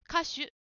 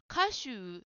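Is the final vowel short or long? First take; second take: short; long. First: The final vowel is kept short. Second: The final vowel is drawn out long. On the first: The word means singer. The speaker calls it right. "歌手、歌手です。" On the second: The word becomes a different word. The speaker calls it wrong. "ジムさんは歌手と言っているように聞こえました。うが増えると意味が変わってしまいますね。"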